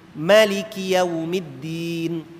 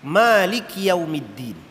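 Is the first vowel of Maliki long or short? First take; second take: short; long. First: The first vowel 'ma' is kept short. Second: The first vowel 'ma' is held long. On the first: "Ma pendek" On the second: "Kita baca ma panjang kan"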